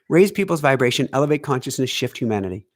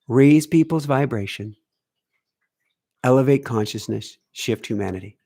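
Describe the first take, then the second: First: The phrase is spoken at a normal, quicker pace. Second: The phrase is spoken at a slower, deliberate pace.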